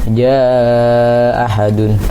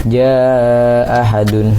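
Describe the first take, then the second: Both takes have the same delivery.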